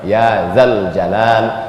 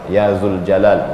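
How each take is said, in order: First: The vowel after Z is 'a'. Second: The vowel after Z is 'u'. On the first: The speaker calls it right. "Ya Zal Jalal wal Ikram. Itu secara kaedah bahasa" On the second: The speaker calls it wrong. "ini banyak saya dengar. Ya Zul Jalal, bukan"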